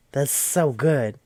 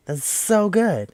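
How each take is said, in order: First: Drawn-out "so good" at usual pitch; impressed, savouring it slowly; slow awed praise. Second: Slow, high-pitched "so good"; gushing praise. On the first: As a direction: stretch out "so good" in admiration. First take of repeated praise. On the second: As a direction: push it up high and stretch it out. Second take, pitched up. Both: Real, not acted.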